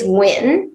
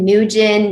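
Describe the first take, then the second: First: The name is said as one syllable. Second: The name is said with two syllables. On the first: The speaker calls it right. "Actually, it's Win" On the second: The speaker calls it wrong. "not being able to pronounce my last name correctly"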